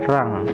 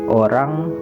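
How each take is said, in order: First: The word starts without the vowel o. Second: The word begins with the vowel o.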